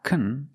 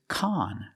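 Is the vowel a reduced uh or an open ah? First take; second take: reduced uh; open ah. First: The vowel is a short, reduced uh sound. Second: The vowel is an open ah sound. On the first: The speaker calls it wrong. "It's not kun, it's not the short sound" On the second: The speaker calls it right. "We use the short ah sound like hot and stop"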